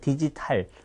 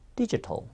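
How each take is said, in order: First: It is pronounced as Korean syllables, with every vowel full. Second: It is pronounced the English way, with reduced vowels. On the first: The speaker calls it wrong. "못 알아듣기 때문에 문제가 되는 겁니다" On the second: The speaker calls it right. "디지털보다는요"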